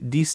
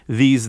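First: The word begins with a d sound. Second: The word begins with a th sound. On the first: The speaker calls it wrong. "Spanish frequently substitutes a D or a T" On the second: The speaker calls it right. "instead of saying these"

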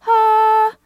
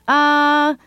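First: It is in a high head voice. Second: It is in a low chest voice.

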